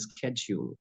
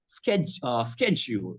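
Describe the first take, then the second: First: "schedule" with a soft sh start, like SHED-yool; British pronunciation. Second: "schedule" with a hard sk start, like SKED-jool; American pronunciation. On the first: Giving the British or neutral form, British pronunciation. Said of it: "in British or in neutral". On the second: Showing how celebrity fans say it, American pronunciation. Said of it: "They tend to speak in American accent". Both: Shown as a demonstration.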